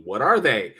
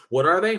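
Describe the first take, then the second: First: Said in the usual way. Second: "What are they?" thrown back higher with a rising tune on "they"; disbelieving echo. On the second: Shown as a demonstration. Echoes it in disbelief.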